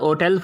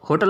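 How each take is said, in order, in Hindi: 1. शब्द बिना "h" की आवाज़ के शुरू होता है। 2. शब्द "h" की आवाज़ से शुरू होता है। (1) "अब होटल पढ़ते हैं इसको, एन ओ टेल, तो इसमें एच साइलेंट होता है" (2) "तो होटल अब नहीं पढ़ते"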